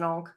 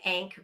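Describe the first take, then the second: First: The vowel sounds like the one in 'on'. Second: The vowel sounds like the one in 'cat'. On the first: This is how the speaker has always heard it. The speaker calls it right. "because it's an onk" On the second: This is how the narrator says it. The speaker calls it wrong. "which he calls an ank"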